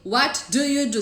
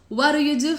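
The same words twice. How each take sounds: First: Each word is said separately and squarely. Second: The words run together in one linked chunk. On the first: The speaker calls it wrong. "Ninguém fala assim... tudo quadradinho" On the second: The speaker calls it right. "Naturalmente, as pessoas falam"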